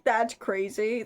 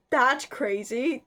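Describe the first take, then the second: First: Said in the usual way. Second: Slow, drawn-out, incredulous; disbelief. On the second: Real, not acted. Vlogger reacting to the Russians' motive, slow disbelief. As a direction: stretch it out in disbelief.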